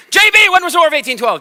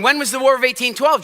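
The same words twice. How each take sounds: First: Loud, high and fast, pouncing on the student; teacher calling out. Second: Said in the usual way. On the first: Retold or imitated. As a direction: catch her off guard with a sudden loud question. Teacher singles out J B.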